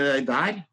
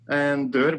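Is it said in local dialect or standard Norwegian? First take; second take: dialect; standard. First: It is said in the local dialect. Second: It is said in standard Norwegian.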